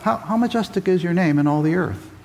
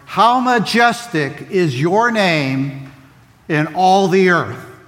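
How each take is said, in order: First: It is said as a real question. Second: It is said as an admiring exclamation. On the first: Asks how majestic the name is. The speaker calls it wrong. "Well, tell us" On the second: Declares that the name is very majestic. The speaker calls it right. "Or do you read it this way?"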